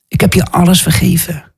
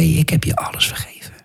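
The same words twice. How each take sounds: First: Said in the usual way. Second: Soft, voiceless whisper; whispered reassurance. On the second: Retold or imitated. Jesus tells the preacher he is forgiven, whispered. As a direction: whisper it as tender absolution.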